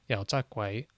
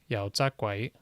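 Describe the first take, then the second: Both takes have the same delivery.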